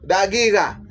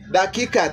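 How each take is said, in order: First: The word is said with g sounds. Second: The word is said with k sounds. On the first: This is how most people say it in speech. "you will hear most of them say dagiga" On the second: This is the basic form of the word. "But it's simply dakika"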